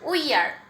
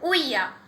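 First: Both words are said fully with the r. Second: The words merge and the r is dropped.

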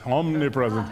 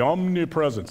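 First: It is said in a solemn, put-on voice. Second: It is said in a normal voice.

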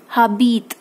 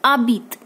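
First: The h at the start is pronounced. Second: The h at the start is silent. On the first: The speaker calls it wrong. "don't say habit" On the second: The speaker calls it right. "it's abit"

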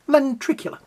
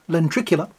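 First: It is said with dramatic, exaggerated feeling. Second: It is said plainly, without extra expression.

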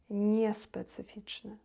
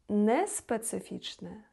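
First: The consonant before the vowel is softened. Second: The consonant before the vowel stays hard. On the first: The speaker calls it right. "тому що пом'якшується" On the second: The speaker calls it wrong. "такого немає"

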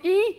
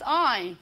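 First: The letter is said with an 'ee' vowel. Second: The letter is said with an 'eye' vowel. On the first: "is this the normal E letter in Dutch" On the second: "or the I in English"

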